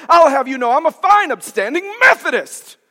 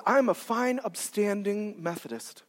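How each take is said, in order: First: Loud, high-pitched huffy imitation; indignant churchgoer. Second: Slow, understated imitation of a proud churchgoer; self-satisfied churchgoer. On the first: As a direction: declare it loudly, mock-offended. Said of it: "she clamped it to her chest and she said". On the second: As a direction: say it slowly, lightly mimicking self-righteousness. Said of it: "I had a woman tell me that one time".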